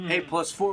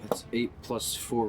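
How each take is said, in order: First: It is said in a bold, confident way. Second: It is said in an unsure, hesitant way. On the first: "Say it with confidence" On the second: "You shouldn't have said it like that"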